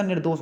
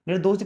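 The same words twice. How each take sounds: First: Said in the usual way. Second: निर्दोषी said "nirdosi", with an extra final ee; added "i" ending. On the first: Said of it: "होता है". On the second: Shown as a demonstration. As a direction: tack an ee onto the end, निर्दोषी. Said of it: "कुछ नहीं होता".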